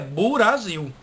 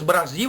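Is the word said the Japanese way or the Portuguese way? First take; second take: Japanese; Portuguese. First: A u vowel is inserted between b and r. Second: It is said the plain Portuguese way.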